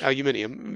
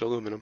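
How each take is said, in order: First: It is said the British way, with five syllables. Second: It is said the American way, with four syllables. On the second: "in American"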